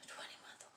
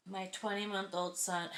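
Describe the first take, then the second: First: Whispered disbelief. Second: Said in the usual way. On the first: Real, not acted. Repeats phrase in disbelief.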